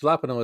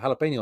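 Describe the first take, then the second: First: The word is pronounced with a French-style reading. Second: The word is pronounced with a Spanish-style reading. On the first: The speaker calls it wrong. "it's not pronounced jalapeno" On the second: The speaker calls it right. "It's uh, jalapeno"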